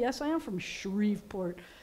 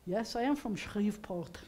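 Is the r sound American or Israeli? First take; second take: American; Israeli. First: It is said with an American r. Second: It is said with an Israeli guttural r.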